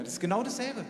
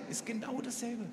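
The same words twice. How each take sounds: First: Said in the usual way. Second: Repeated much softer, dropping away; soft echo. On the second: Shown as a demonstration. Preacher echoing his point to the congregation, softly. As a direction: let the repeat fall quiet.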